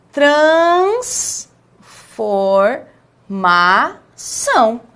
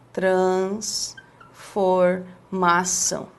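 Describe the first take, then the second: First: "transformação" as "trans, for, ma, ção", each stretched with pauses; syllable by syllable. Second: "Transformação" low, soft and very slow, in separate chunks; broken into pieces. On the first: Teacher shows the correct syllables, each one separate and drawn out. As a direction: sound out every syllable of "transformação" clearly and very slowly. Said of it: "A sílaba é". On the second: Teacher imitates someone splitting the word, low slow pieces. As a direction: murmur "trans... for... mação" slowly, as if writing it. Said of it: "aí a pessoa começa assim".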